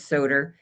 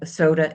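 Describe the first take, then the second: First: It is said in a Jersey City accent, added R. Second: It is said in a standard accent, no added R.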